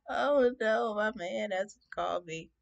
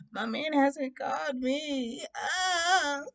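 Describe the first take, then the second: First: Mock distraught. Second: High, drawn-out fake crying; mock distraught. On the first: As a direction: lament slowly in hammed-up dismay. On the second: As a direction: wail slowly like a lovesick drama queen. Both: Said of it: "I was just so distraught".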